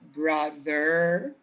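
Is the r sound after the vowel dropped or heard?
heard. The final r sound is clearly pronounced. "in American you produce both r sounds"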